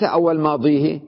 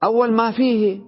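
First: ماضيه as "māḍīhi", with emphatic d; emphatic ḍ, not f, in ماضيه; rejected dad reading. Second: ما فيه as "mā fīhi", with an f; f, not emphatic d, in ما فيه; corrected fa reading. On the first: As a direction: say ماضيه with a heavy ḍ and long ee. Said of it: "وليس أول ماضيه". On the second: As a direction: say ما فيه with a clear f and long ee. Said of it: "بدل ماضيه الضاد ساويها فاء". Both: Shown as a demonstration.

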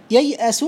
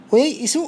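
First: ييأس with a short a on the hamza, "yay'asu"; with fatha. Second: وييئس with a short i on the hamza, "wa-yay'isu"; with kasra. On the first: Teacher showing the regular form, fatha on hamza. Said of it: "بالفتح المقيس". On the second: Teacher showing the irregular form, kasra on hamza. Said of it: "بالكسر الشاذ". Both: Shown as a demonstration.

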